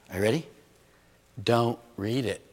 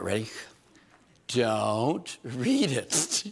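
First: Quick setup, firm don't read it; punchline delivery. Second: Much slower, drawing out read; slow stretched retry. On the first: Preacher giving the advice to the congregation, punchline first try. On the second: Preacher retrying the joke for the congregation, stretched slow. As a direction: land it slower the second time. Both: Shown as a demonstration. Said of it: "That didn't get over as good".

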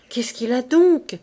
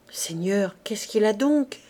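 First: Louder, rising panic on the repeat; frightened repeat. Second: Said in the usual way. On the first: Acted. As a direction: push the fear into "donc". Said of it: "répétait Gervaise, prise de taf". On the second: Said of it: "prise de taf".

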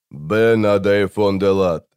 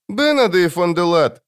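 First: Said in the usual way. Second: Put-on high, sorrowful child voice; child demon sadly addressing someone by name; Жемчуг, sad. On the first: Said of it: "но затем ответил". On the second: A narrator's reading. Demon calls the wizard by name, sad child voice. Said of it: "грустно проговорил Жемчуг".

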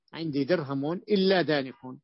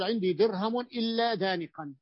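First: دانق said slowly, ending on a short "-u", dāniqu; slow down and close دانق on "-u"; nominative ending. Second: دانقا ends in a clear nasal "-an", dāniqan; accusative ending. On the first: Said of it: "لكن يجوز أن تقول". (دانق بالرفع وضمة في آخره، ببطء) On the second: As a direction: end دانقا on a clear open "-an". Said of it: "تقول". (دانقا بالنصب وتنوين الفتح واضح) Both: Shown as a demonstration.

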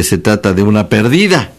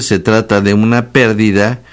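First: Perdida stressed on the middle syllable. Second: Pérdida stressed on the first syllable; stress on PÉR. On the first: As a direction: say per-DI-da, leaning on the second syllable. (perdida, con la fuerza en la sílaba di) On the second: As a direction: say PÉR-di-da, accent up front. (pérdida, con la fuerza en la primera sílaba) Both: Shown as a demonstration. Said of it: "tampoco es lo mismo decir".

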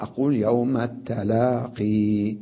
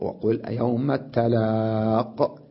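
First: يوم التلاقي said slowly, holding the final ya; slow recitation keeping the ya in التلاقي; pause on the ya. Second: يوم التلاق said slowly, ending on a bare qaf; slow Quranic pausal reading, التلاق; pause form without ya. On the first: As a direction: stop on the long ya in التلاقي. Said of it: "يجب الوقوف على الياء". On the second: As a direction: drop the final ya in التلاق and stop on the qaf. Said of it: "أقف". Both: Shown as a demonstration.

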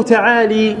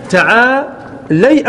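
First: تعالي said ta'ālī, ending in long "ee"; kasra on the lam. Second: تعالي said ta'ālay, ending in "ay"; fatha on the lam. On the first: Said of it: "كسر اللام". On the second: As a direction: open the lam of تعالي into an "ay" glide. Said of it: "بفتح اللام". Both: Shown as a demonstration.

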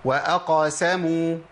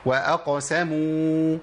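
First: "وأقسموا" with the qaf opened as "أقَسموا"; wrong fatha qaf. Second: "وأقسموا" with qaf stopped, light bounce, slow; correct sukun qaf. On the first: Teacher mimicking students' common error, slow. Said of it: "لا". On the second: Teacher giving learners the correct reading, slow. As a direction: keep the qaf of "وأقسموا" still. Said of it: "يبقى إيه". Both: Shown as a demonstration.

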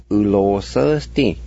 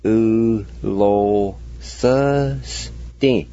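First: Said in the usual way. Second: U lo sơ sti, each syllable drawn out very slowly and evenly. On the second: Shown as a demonstration. Teacher sounding out the Cherokee word for learners, very slowly. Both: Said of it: "And together".

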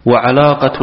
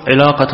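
First: وعلاقة with an a after the ع; fatha on العلاقة. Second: علاقة with an i after the ع; kasra on العلاقة. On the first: Student reads the love sense to the teacher, وعلاقة with fatha. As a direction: say وعلاقة as "wa-ʿalaqa". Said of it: "الحب بالفتح". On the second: Student reads the whip's strap to the teacher, علاقة with kasra. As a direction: say علاقة as "ʿilaqa". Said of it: "ونحوه بالكسر". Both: Shown as a demonstration.

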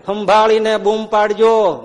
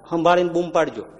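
First: સંભાળીને stretched slow and louder; slow warning. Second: Said in the usual way. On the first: Shown as a demonstration. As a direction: warn them slowly, stressing સંભાળીને. (સંભાળીને પર ભાર, ધીમી ચેતવણી)

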